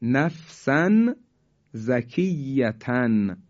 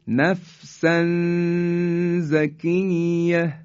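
First: Said in the usual way. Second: Quranic recitation holding a nasal hum before زکیه; ikhfa recitation. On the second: Shown as a demonstration. (تلاوت آهسته نفسا زکیه با اخفای تنوین) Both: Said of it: "مثال بعدی".

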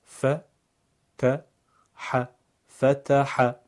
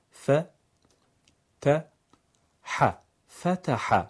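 First: ف ت ح separated, then فتح louder; syllable by syllable. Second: ف ت ح split slowly, then فتح whole; syllable by syllable. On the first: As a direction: break فتح into parts then join. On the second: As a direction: spell فتح out piece by piece. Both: Shown as a demonstration. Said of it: "هجا هجا یا بخش بخش".

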